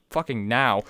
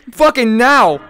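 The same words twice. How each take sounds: First: Said in the usual way. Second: Loud, forceful demand; urgent yell. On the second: Real, not acted. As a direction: shout it as an urgent order. Repeats it as a yell.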